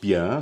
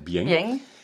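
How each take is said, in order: First: It is said with a standard French pronunciation. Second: It is said with a southern Provençal pronunciation. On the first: "Nicht Bien" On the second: "sondern Bien"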